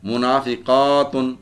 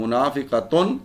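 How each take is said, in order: First: منافقاتن with "qaa" held long before "tun"; teacher's slow منافقاتن, drawn-out aa; long plural ending. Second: منافقتن as "munaafiqatun", short "qa"; rising teacher's منافقتن, unstretched "qa"; singular word form. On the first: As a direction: slowly stretch "munaafiqaaatun" in منافقاتن. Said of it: "مؤنث بنانے کا طریقہ". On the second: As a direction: keep the a before the final "tun" short in منافقتن. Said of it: "اوپر زبر لگانی ہے اور گول تا". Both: Shown as a demonstration.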